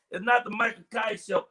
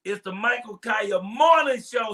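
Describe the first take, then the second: First: Said in the usual way. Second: Slow, leaning hard on Morning; stress on Morning. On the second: Shown as a demonstration. Host correcting DJ Dave's show name, stressing Morning.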